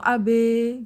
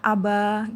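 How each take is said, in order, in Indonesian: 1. Vokal akhirnya dinaikkan ke arah e. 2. Vokal akhirnya adalah a terbuka penuh. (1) "itu taklil" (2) "abanya pakai fathah"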